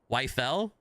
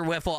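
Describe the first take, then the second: First: The first syllable rhymes with 'life'. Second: The first syllable rhymes with 'if'. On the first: This is the German pronunciation. "The German pronunciation is Wife-L" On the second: This is the American pronunciation. "from an American English standpoint, I'm nailing it"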